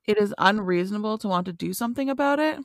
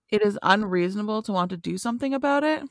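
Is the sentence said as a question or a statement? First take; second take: question; question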